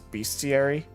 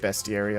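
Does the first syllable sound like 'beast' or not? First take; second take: like beast; not like beast. First: The first syllable sounds like 'beast'. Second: The first syllable does not sound like 'beast'. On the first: It is his own old way of saying it. "I used to always pronounce that as Bestiary, just because beast" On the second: It is the way most other people say it. "I hear people say Bestiary a lot more"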